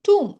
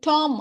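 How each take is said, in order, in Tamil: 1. உயிர் ஒலி நீண்ட 'oo' ஒலி. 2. உயிர் ஒலி திறந்த 'ah' ஒலி. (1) "இதோட ப்ரொனன்சியேஷன் டூம்" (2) "இதை நம்ம வந்து டாம் அப்படின்னு படிச்சிடக்கூடாது"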